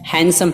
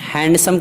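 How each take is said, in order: First: The d sound is silent after the n. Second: The d sound is pronounced after the n. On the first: The speaker calls it right. "पढ़ते हैं" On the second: The speaker calls it wrong. "हैंडसम के बजाय"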